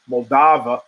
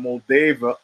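First: Moldava with an open AH, mol-DAH-va; alternative pronunciation. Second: Moldava with a long AY, mol-DAY-va; alternative pronunciation. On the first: Podcaster retrying the country's name, Moldava as mol-DAH-va. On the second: Podcaster trying out the country's name, Moldava as mol-DAY-va. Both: Real, not acted.

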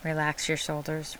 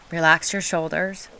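First: Soft and settled instruction; softer, more relaxed. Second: Said in the usual way. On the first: Shown as a demonstration. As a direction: let it drop, gently. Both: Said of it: "Really relax them this time".

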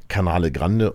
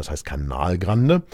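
First: "Canale Grande" with the extra e on Canale, German habit; wrong Italian name. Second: "Canal Grande" said with no final e on Canal; correcting them: "Canal Grande", Canal cut short; correct Italian name. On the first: Retold or imitated. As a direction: say "Canale Grande" with a final -e on Canale, like the tourists. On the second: Shown as a demonstration. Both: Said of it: "es heißt nicht Canale Grande".

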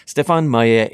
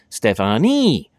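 First: "Stefan" with the final E silent; French pronunciation. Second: "Stephanie" ending in a long, high EE; English misreading. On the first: Giving his own French name, "Stefan" without any EE. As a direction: say "Stefan Maillet" the French way, ending Stefan on AHN. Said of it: "in the French dialect, that E is just a kinda silent". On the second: Explaining how English readers assume his name sounds, "Stephanie" with EE. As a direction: stretch the final E of "Stephanie" into a loud EE. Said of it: "in the English dialect, the E". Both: Shown as a demonstration.

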